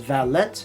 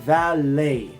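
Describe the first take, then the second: First: The final T is clearly pronounced. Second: The final T is silent. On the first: The speaker calls it wrong. "Many students would pronounce this as valet" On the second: The speaker calls it right. "American English, we say the word valet"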